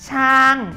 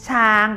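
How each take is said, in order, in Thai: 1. เป็นเสียงตก จากสูงลงต่ำ 2. เป็นเสียงกลาง ราบเรียบ (1) "ช้างเป็นเสียงโท" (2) "ช้างเป็นเสียงสามัญ"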